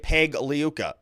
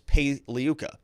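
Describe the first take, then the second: First: The G in the name is sounded. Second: The G in the name is silent. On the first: The speaker calls it wrong. "don't say Peg Liuka" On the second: The speaker calls it right. "the G is silent"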